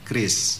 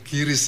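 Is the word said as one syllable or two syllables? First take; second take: one syllable; two syllables. First: It is said as one syllable, kris. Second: It is said as two syllables, ki-ris. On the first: The speaker calls it right. "dibacanya sudah standar kris" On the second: The speaker calls it wrong. "Bang Fadel yang sering bilang-bilang kiris"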